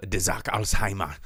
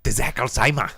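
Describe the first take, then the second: First: Film title in a German accent, usual pitch; understated German pronunciation of the title. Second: Put-on German accent, punched up for the joke; hammed-up German. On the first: Shown as a demonstration. Host tells co-host the book's title, lightly German accent. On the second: Host repeats the title to a laughing co-host, hammed-up German accent. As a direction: say the title with mock German force. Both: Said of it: "You got a problem with German".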